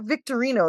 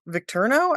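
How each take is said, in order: First: The name is said as Victorino. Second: The name is said as Victurno. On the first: The speaker calls it wrong. "it's not Victorino" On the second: The speaker calls it right. "the way it's said is like Vic Victurno"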